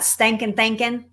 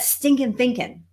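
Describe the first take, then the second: First: It has a heavy, deep Southern accent. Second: It has a milder, less Southern accent. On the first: Someone else said it. "She's this real deep, deep Southern accent, and she calls it stankin' thinking" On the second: The speaker says it her own way. "I don't say it like she does"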